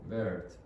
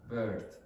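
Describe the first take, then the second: The two takes are said the same way.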